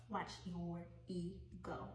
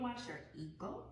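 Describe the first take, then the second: First: Watch your ego said slowly, each word weighted; slow emphatic repeat. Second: Said in the usual way. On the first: Shown as a demonstration. Tarot reader warning Cancer listeners, slow weighted repeat. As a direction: lean on "Watch" and slow it right down as a pointed warning.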